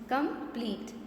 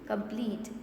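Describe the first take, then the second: First: "Complete" broken as com, plete; teacher separating both halves of "Complete"; split into syllables. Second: Said in the usual way. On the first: Shown as a demonstration. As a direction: say "Complete" in two distinct beats. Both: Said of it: "How many syllables?".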